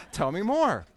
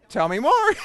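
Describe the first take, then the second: First: Said in the usual way. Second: Much higher and louder, a big comic "Tell me more"; punchline delivery. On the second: Retold or imitated. Speaker quoting his own coaching question to the audience, loud and high. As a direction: belt it out as the punchline.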